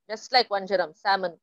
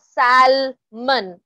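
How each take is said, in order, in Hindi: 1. इस शब्द में L की ध्वनि मौन है। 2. इस शब्द में L की ध्वनि उच्चारित होती है। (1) "L is silent" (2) "it's not salmon over there"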